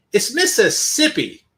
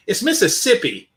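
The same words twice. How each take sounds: First: "It's Mississippi" said slower and weighted, landing hard on "Mississippi" with a falling close; emphatic echo of "It's Mississippi", stressing "Mississippi" with a heavy fall; slow emphatic repeat. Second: Said in the usual way. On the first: Real, not acted. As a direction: drag out "It's Mississippi" in exasperated disbelief. Repeats town name in disbelief.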